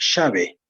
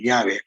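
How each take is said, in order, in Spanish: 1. Se pronuncia con pronunciación argentina. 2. Se pronuncia con pronunciación de la sierra peruana. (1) "un argentino va a decir" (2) "acá en el Perú, especialmente en la sierra, se dice"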